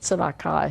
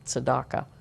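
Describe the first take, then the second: First: It is said with a Hebrew pronunciation. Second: It is said with a Yiddish pronunciation. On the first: "Hebrew pronunciation" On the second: "I think it's Yiddish"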